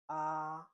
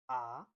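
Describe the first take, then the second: First: The syllable is said with the first tone. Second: The pitch rises through the syllable. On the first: "The first tone is this, like this one" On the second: "The second one is ah, ah, ah. You rise up"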